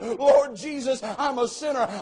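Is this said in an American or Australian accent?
Australian. It is said in an Australian accent.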